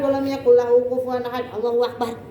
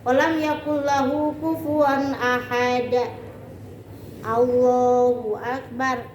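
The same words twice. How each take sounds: First: It runs straight into Allahu akbar without pausing. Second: There is a pause before Allahu akbar. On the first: The prayer is being rushed. The speaker calls it wrong. "Langsung Allahu akbar" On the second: The prayer is performed calmly and attentively. The speaker calls it right. "berhenti dulu"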